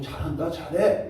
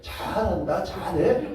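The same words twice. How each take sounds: First: The praise sounds warm and sincere. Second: The praise sounds mocking and sarcastic. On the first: The person is genuinely praised. The speaker calls it right. "이거 괜찮은데" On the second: The person is actually being criticized. The speaker calls it wrong. "이래버리면 완전 꽝 아닙니까?"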